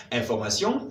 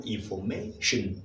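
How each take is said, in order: First: Information with French vowels and a nasal ending; French pronunciation. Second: Information with an English shun ending; English pronunciation. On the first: Teacher contrasting the French word with the English one. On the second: Teacher giving the English word after the French one. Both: Shown as a demonstration. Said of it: "Voilà, exactement".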